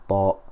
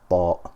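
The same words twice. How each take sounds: No difference in how they are said.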